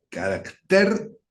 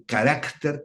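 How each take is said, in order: First: "Carácter" said slowly with stress on the last syllable, caracTER, ending in a rise. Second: "carácter" with stress on the second syllable, caRÁCter, falling at the end. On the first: Preacher showing the congregation the Greek word, stressed caracTER. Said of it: "con K y con acento en la E". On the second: Preacher contrasting it with the Spanish word, stressed caRÁCter. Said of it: "con acento en la A". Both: Shown as a demonstration.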